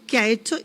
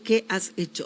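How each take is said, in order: First: The words run together and the s drops. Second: Each word is said separately, keeping the s. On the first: "naturalmente nosotros hablamos de corrido" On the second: "en un dictado dice"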